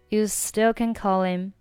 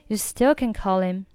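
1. 'h' 不发音，'call' 连到 'him' 上。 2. 'h' 不发音，'call' 连到 'him' 上。

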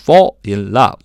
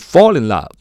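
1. 这三个词读得慢，而且是分开读的。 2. 这三个词连在一起读，很流畅。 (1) "慢慢读就是" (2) "连读就是"

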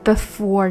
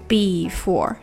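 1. 第一个元音短促，弱化。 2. 第一个元音饱满，拖长。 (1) "这个e 它缩短了" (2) "不要读的太过于before"

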